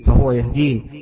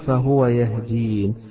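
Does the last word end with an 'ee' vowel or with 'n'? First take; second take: ee vowel; n. First: The last word ends with a final 'ee' vowel. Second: The last word ends on the 'n' sound. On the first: "وإن كان الأصل يقول الذي خلقني فهو يهديني" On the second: "وهنا مشي على نفس الوزن الذي قبله الياء والنون"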